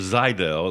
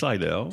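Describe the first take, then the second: First: The word begins with a Z sound. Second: The word begins with an S sound.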